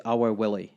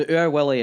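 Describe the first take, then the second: First: "our Willie" with "our" opened out like "hour"; standard English pronunciation. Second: "Ur Wully" with "Ur" as a single oor-like vowel; Scots pronunciation. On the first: Scot translating cartoon name, "our Willie" in standard English. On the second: Scot explaining cartoon name, "Ur Wully" in Scots. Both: Shown as a demonstration. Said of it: "Ur Wully is our Willie".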